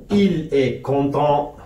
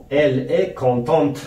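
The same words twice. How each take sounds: First: Slow French "content" with a silent final t; final consonant silent. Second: Slow French "contente" with an audible final t; final consonant pronounced. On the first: Teacher giving the masculine example slowly, "content" with no final t. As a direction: say it slowly, ending "content" on the nasal vowel. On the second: Teacher giving the feminine example slowly, "contente" with the t sounded. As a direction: say it slowly, finishing "contente" on a clear t. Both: Shown as a demonstration.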